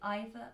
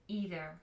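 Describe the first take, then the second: First: It is said with a British pronunciation. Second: It is said with an American pronunciation. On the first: "in British English, we pronounce it either or neither" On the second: "in American English, they pronounce it neither and either"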